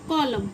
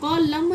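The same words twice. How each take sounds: First: The final n sound is silent. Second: The final n sound is pronounced. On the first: The speaker calls it right. "एन का व, आपको voice नहीं आएगा" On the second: The speaker calls it wrong. "कॉलम न नहीं"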